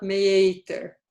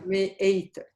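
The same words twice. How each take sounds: First: Meeter glided through as "may-eyter"; without the stop. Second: Meeter split as "may, eyter"; glottal stop. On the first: Teacher showing how Dutch word is not said, joined vowels. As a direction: run meeter slowly together, no catch in the middle. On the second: Teacher giving a Dutch example, glottal break mid-word. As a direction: catch the throat between the vowels of meeter. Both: Shown as a demonstration.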